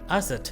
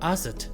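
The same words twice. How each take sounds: Both takes have the same delivery.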